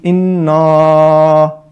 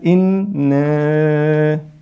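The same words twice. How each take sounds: First: The vowel is heavy, with lips opened wide. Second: The vowel is thin, with lips barely open. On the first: "that's mufakhama, that's incorrect" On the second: "I'm not opening my lips enough"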